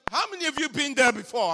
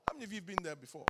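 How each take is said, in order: First: Asked again much louder and faster; repeating the question loudly to the congregation. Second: Said in the usual way. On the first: Shown as a demonstration. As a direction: call out the question to the crowd. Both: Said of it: "I'm asking".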